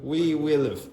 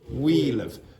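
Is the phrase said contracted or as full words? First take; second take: full words; contracted. First: Each of the three words is said separately. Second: The words run together into one short syllable.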